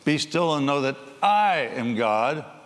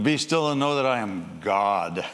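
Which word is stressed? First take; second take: I; God. First: The stress is on the word I. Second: The stress is on the word God.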